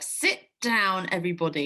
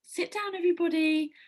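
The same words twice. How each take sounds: First: It is said in an irritated, sharp tone. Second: It is said in a calm, neutral tone. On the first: The speaker is annoyed with the class. "but if you're like" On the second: A plain request to the class. "you might be saying like"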